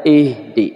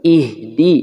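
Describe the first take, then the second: First: Ihdi slurred toward ehde; slow ihdi with a muddy e sound, wrongly. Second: Ihdi with a clear i vowel. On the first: Teacher showing students the wrong ihdi. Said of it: "Tidak ihdi". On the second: Teacher showing students the correct ihdi. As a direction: keep the i in ihdi open and clear. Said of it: "Vokalnya jelas". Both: Shown as a demonstration.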